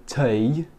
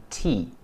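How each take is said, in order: First: "tea" said like "tay"; imitated learner's tea. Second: "tea" with a long EE, rhyming with "see". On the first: Teacher copying this guy, "tea" imitated as "tay". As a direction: mimic the learner, "tea" with an AY vowel, drawn out. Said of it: "This guy's saying tea". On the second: Shown as a demonstration. Teacher correcting this guy, "tea" with a clear EE. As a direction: say "tea" as "tee". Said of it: "rather than tea".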